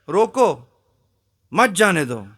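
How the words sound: The pause comes right after 'roko'.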